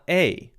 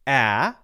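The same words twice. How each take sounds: First: The vowel sounds like the letter's name. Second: The vowel is a short sound, unlike the name. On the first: The speaker calls it wrong. "short vowel sound of A is not A" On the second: The speaker calls it right. "It's A"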